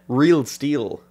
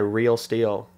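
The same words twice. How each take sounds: First: The vowels are a plain 'ee' sound. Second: The vowels sound closer to an 'ay' sound. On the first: This is how the other person says it. "You say Real Steel" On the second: This is how the speaker says it in an Irish accent. "But I say Real Steel"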